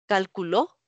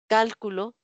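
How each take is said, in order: First: The stress is on the last syllable. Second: The stress is on the first syllable. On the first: "palabra aguda" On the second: "palabra esdrújula"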